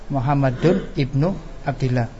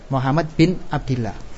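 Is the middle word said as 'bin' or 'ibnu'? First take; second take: ibnu; bin. First: It is said Muhammadun, then ibnu with vowels. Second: It is said Muhammad, then the short form bin. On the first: It states that Muhammad is the son of Abdullah. "Kalau khobar, Muhammad adalah anaknya Abdullah" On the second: It names Muhammad son of Abdullah as one phrase. "kalau kita niatkan badal atau sifat, maka kita katakan Muhammad bin Abdillah"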